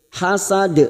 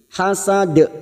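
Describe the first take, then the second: Both takes have the same delivery.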